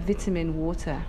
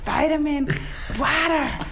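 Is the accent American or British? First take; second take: British; American. First: It is said in a British accent. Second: It is said in an American accent. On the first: "So I try to order vitamin water" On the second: "I put on my fake American accent"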